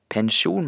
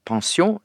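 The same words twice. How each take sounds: First: The word is pronounced the Norwegian way. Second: The word is pronounced the French way. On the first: The speaker calls it right. "på norsk så holder vi oss til pensjon" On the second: The speaker calls it wrong. "det er fransk"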